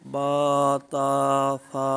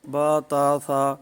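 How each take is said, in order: First: The vowels are said long and drawn out. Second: The vowels are said short, without lengthening. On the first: The speaker calls it right. "अलिफ मद्दा का ख्याल करके इन हरूफ को पढ़ेंगे" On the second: The speaker calls it wrong. "ये अलिफ मद्दा जो है नहीं पढ़ा जा रहा"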